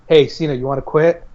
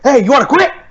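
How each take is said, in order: First: It is said in a nice, calm voice. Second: It is yelled loudly and harshly.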